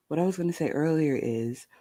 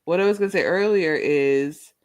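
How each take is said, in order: First: Soft sleepy ASMR murmur; hushed, drowsy, just out of bed; just-woke-up ASMR voice. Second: Said in the usual way. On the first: Shown as a demonstration. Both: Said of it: "my I just woke up A S M R voice".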